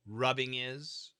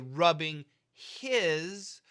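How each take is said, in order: First: The h at the start of his is dropped. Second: The h at the start of his is pronounced. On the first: "what happens is we say rubbing is" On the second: "we should say rubbing his"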